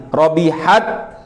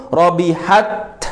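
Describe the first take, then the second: No difference in how they are said.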